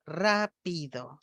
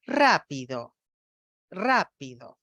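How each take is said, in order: First: Rápido said slowly with the pitch change moved to the middle syllable PI; imitating patient's misplaced stress. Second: Rápido with the pitch falling sharply right after the first syllable RA; typical stress on ra. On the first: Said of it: "la nena dice rápido". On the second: Shown as a demonstration. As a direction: put the accent on RA in Rápido and drop straight down. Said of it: "el F cero de la fonoaudióloga va de alto a bajo".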